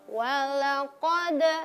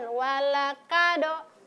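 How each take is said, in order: First: The k-sound is made far back in the mouth. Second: The k-sound is made further forward in the mouth. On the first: The speaker calls it right. "huruf yang seharusnya diucapkan adalah huruf qaf" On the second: The speaker calls it wrong. "Ada yang selalu mengucapkan walakado"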